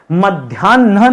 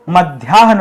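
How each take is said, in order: First: मध्याह्न said as madhyanna, with a long nn and no h; मध्याह्न with the h dropped, as madhyanna; wrong pronunciation. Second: मध्याह्न said as madhyahn, h before n; मध्याह्न with a clear h before the n; correct pronunciation. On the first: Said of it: "मध्याह्न नहीं होता दोस्तों". (गलत उच्चारण: मध्याह्न को मध्यन्ना, ह के बिना) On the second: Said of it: "मध्याह्न होता है". (सही उच्चारण: मध्याह्न में पहले ह, फिर न) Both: Shown as a demonstration.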